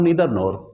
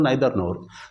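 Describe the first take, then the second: First: Neither begins with an 'ee' vowel sound. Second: Neither begins with an 'eye' vowel sound. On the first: "मैं बोलता हूं नीदर nor" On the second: "आप बोलते हो नाइदर nor"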